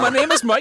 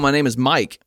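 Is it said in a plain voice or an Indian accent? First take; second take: Indian accent; plain voice. First: It is said in an imitated Indian accent. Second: It is said in the speaker's normal accent. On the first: "thick Indian accent" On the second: "I was hoping we were getting a little cosplay in this thing"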